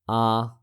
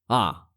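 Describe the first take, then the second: First: The pitch stays level throughout. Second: The pitch falls sharply from high to low.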